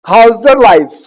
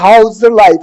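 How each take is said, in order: First: The first words blend into one word, howzer. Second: Each word is said separately and fully.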